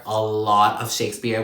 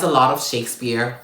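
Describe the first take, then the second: First: "lot" leaned on and stretched; stress on LOT. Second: Said in the usual way. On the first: Real, not acted. Book reviewer underlining how much there is, stress on "lot". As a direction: hit the word "lot" for emphasis. Repeats it for emphasis.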